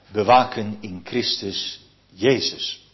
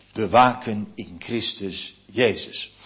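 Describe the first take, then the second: Both takes have the same delivery.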